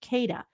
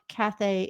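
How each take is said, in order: First: The middle consonant is a d sound. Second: The middle consonant is not a d sound. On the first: The speaker calls it right. "where the D came from" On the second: The speaker calls it wrong. "it was not Cathay"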